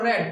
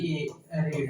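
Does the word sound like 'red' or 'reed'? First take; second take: red; reed. First: The vowel is short, like 'red'. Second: The vowel is long, like 'reed'. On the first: It is the past form of the verb. "Second में इसको रेड पढ़ते हैं" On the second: It is the present form of the verb. "अभी रीड है"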